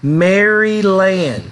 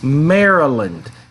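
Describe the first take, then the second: First: Every syllable is pronounced fully, as spelled. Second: The syllables are run together in reduced form. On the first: The speaker calls it wrong. "the pronunciation looks like it would be" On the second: The speaker calls it right. "but it's"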